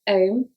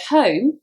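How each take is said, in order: First: The initial h sound is dropped. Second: The initial h sound is pronounced.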